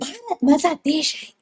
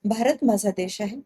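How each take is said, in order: First: It is said loudly, almost shouting. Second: It is said in a calm, plain way. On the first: "आत्ताचे news anchors म्हणजे" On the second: "ही जुनी style झाली news अँकरची"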